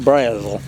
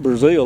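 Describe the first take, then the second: First: The name sounds different from the country Brazil. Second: The name sounds like the country Brazil. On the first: This is how the family says it. "they say Brazel" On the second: This is not how the family says it. "They don't say Brazil"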